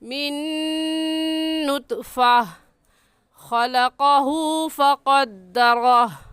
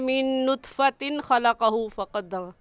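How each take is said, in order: First: It stops on nutfa before continuing. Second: It runs on without a pause after nutfa. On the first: The speaker calls it right. "वक़फ़ करते वक्त नुतफ़ा" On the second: The speaker calls it wrong. "यहाँ पर मिलाकर नहीं पढ़ेंगे"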